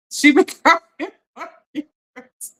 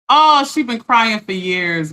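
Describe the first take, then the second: First: Slow, breaking into a real laugh; can't hold the laugh in; laughing through it. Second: Said in the usual way. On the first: Real, not acted. Repeat broken by laughter.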